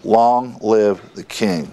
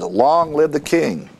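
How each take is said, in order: First: Slow, measured proclamation at usual volume; restrained acclamation. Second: Raised, ringing pitch without added volume; a restrained imitation of a cheering crowd; mock crowd shout. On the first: Retold or imitated. The people acclaim their king, slow understated imitated shout. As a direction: draw out the mock cheer, word by word. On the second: All the people acclaim the new king, mildly imitated shout. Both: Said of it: "all the people shouted and said".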